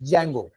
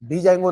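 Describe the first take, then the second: First: The word starts directly with a J sound. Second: The word starts with a separate D sound. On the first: The speaker calls it right. "डी silent असतो" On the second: The speaker calls it wrong. "हा डी जँगो नाही"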